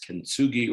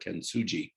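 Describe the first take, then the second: First: The g is hard, as in go. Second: The g is soft, like a j. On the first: "whether the G is hard or soft" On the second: "probably a soft G"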